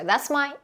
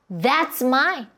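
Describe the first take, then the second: First: The word 'that's' is passed over quickly. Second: The word 'that's' is emphasized. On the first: Nothing in particular is highlighted. "그냥 빠르게 지나갈 때도 있어요" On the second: The speaker wants to highlight 'that'. "이런 식으로 강조할 때도 있고요"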